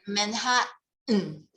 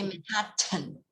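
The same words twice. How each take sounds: First: The t in the last syllable is nearly dropped. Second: The t in the last syllable is clearly pronounced. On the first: This is how Americans say it. "The T is nearly gone" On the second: Americans do not say it this way. "They don't say Manhattan. They don't like T A N"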